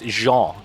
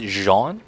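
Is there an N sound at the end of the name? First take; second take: no; yes. First: The name ends without an N sound. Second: The name ends with an audible N sound. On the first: The speaker calls it right. "no N at the end" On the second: The speaker calls it wrong. "I have that N right there"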